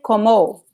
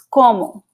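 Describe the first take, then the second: First: The stress falls on the last syllable. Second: The stress falls on the first syllable. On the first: The speaker calls it wrong. "you cannot say como" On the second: The speaker calls it right. "this first vowel here is the stressed one"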